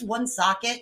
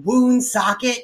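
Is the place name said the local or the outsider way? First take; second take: local; outsider. First: The name is said the local way. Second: The name is said the outsider way. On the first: The speaker calls it right. "just for clarity's sake, it's Woonsocket" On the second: The speaker calls it wrong. "It's not Woonsocket, you fucking plebe"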